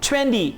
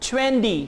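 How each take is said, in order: No difference in how they are said.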